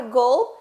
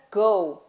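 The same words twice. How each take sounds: First: "goal" closed with an L sound; tongue up for the L ending "goal"; final L pronounced. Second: "go" ending on a U glide, no L. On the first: Teacher contrasting two words, "goal" ending in L. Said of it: "a outra é o som do L". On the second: Teacher contrasting two words, "go" ending in U. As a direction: round off "go" with a U sound. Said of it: "Um é o som do U". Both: Shown as a demonstration.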